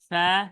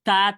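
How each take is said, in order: First: The consonant is soft and breathy, tongue gap open. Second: The consonant is forceful, turning into a hard t. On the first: The speaker calls it right. "এখানে আমাকে নরম নরমই রাখতে হবে" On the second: The speaker calls it wrong. "বেশি জোর দিতে চাই আমার মাখরাজ চেঞ্জ হয়ে যাবে"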